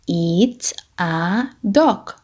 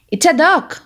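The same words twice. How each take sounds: First: The sentence is spoken slowly. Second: The sentence is spoken fast. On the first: "say with me, but slowly" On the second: "Now let's say it fast"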